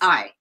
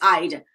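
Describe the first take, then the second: First: There is no final d sound. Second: The final d is said very lightly. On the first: The speaker calls it wrong. "it's not just I" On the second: The speaker calls it right. "it's very subtle, but we have the D"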